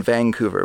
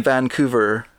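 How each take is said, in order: First: Vancouver with a G sound, vang-couver; local Vancouver. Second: Vancouver with a clean N, van-coover; outsider's Vancouver. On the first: Canadian showing the local way to say Vancouver. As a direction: slip a G between the N and the C in Vancouver. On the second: Canadian showing how outsiders say Vancouver. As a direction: say Vancouver with a plain N like a visitor. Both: Shown as a demonstration. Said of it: "We put a G in between".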